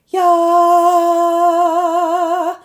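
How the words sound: It is said in a light head voice. "that's head voice"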